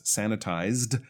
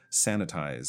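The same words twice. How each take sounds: First: "Sanitized" closed with an audible D; careful "Sanitized", last consonant released; clear final D. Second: "Sanitize" ending on the Z sound, falling; no final D. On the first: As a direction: finish "Sanitized" on a distinct D after the Z. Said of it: "there's a D on the end". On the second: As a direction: say "Sanitize" as the bare verb, without a D. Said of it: "sounds like the verb sanitize". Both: Shown as a demonstration.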